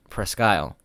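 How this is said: The name is pronounced in a British style. "the other is the British"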